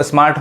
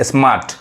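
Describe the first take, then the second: First: स्मार्ट with the r pronounced; r heard in स्मार्ट, as if written with reph; r sounded in स्मार्ट. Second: स्मार्ट with a long aa straight into t; silent r. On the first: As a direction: say स्मार्ट with an audible r before the final t. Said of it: "रेफ देंगे तो स्मार्ट हो जाएगा". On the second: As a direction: say स्मार्ट as "smaat", with no r. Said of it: "र नहीं पढ़ाएगा". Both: Shown as a demonstration.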